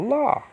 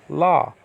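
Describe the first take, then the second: First: LA leaping high in pitch; dramatic accent stress. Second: LA stressed with a smaller pitch lift; less dramatic stress. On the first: Teacher showing the accented first syllable, dramatic stress. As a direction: overdo the accent on LA with a high jump. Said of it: "don't have to be so dramatic". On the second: Teacher toning down the accented syllable, less dramatic stress. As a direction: stress LA without overdoing it. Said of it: "don't have to be so dramatic, but la". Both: Shown as a demonstration.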